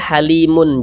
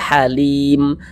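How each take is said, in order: First: The word ends with an added -un syllable. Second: The word ends on a silent m sound. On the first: The reader continues without stopping. The speaker calls it wrong. "Jangan dibaca halimun" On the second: The reader stops at this word. The speaker calls it right. "Ini kita baca halim"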